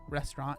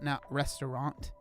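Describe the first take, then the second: First: The word is said with two syllables. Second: The word is said with three syllables. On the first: The speaker calls it right. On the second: The speaker calls it wrong.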